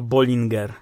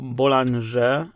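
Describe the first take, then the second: First: The word is read fully as spelled, Polish-style. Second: The word is said with French sounds. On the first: The speaker calls it wrong. "czy co gorsza Bollinger" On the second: The speaker calls it right. "ulubiony szampan Bonda to Bollinger"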